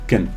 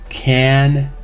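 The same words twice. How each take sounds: First: The vowel is reduced to a schwa. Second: The vowel is a full 'eh' sound. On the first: "The a sound get reduced to a schwa" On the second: "has an eh sound"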